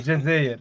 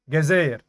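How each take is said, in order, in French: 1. Le mot commence par un son j doux. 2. Le mot commence par un son g dur. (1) "au lieu de" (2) "tu dis ga en fait"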